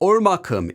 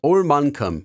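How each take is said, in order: First: There is no n sound before the k. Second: An n sound comes before the k. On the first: The speaker calls it right. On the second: The speaker calls it wrong.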